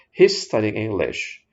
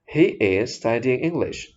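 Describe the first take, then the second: First: He and is are joined into one quick syllable. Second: He and is are said as separate words. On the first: "kalimat semula yang kita ucapkan dengan cepat" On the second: "ini Anda pisahkan"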